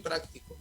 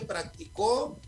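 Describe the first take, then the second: First: The stress is on the first syllable. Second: The stress is on the third syllable. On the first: Someone is a practical person. "como esdrújula" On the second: Someone practised it in the past. "para decirla como aguda, es en la última"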